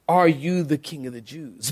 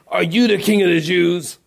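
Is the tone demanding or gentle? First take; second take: gentle; demanding. First: It sounds mild and curious, without hostility. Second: It sounds harsh and demanding, like an interrogation. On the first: The asker has no quarrel with the other. The speaker calls it right. "I think he said" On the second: The asker sees the other as a threat. The speaker calls it wrong. "Did he say, ... Answer me"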